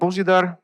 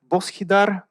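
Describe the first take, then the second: First: The middle consonant is a soft zh sound. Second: The middle consonant is not a zh sound. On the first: This is how the name is really said. The speaker calls it right. "the right letter to express the right sound" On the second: Other people mispronounce the name this way. The speaker calls it wrong. "everybody calls me either"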